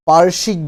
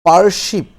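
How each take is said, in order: Both takes have the same delivery.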